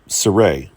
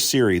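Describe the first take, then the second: First: The name is said like 'Saray'. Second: The name is said like 'Siri'. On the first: The speaker calls it right. "Saray, right?" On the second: The speaker calls it wrong. "I realize I'm not saying her name correctly"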